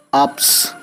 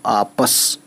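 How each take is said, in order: First: आप्स with p and s run together, no vowel between; non-word reading. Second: आपस in two syllables, short a after the p; zabar on pe. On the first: Teacher shows learners a word that does not exist, non-word reading. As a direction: say आप्स as one closed syllable. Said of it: "कोई word होता नहीं है". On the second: Teacher adds zabar to pe for learners, vowel sounded. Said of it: "पे पे ज़बर करते हैं तो". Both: Shown as a demonstration.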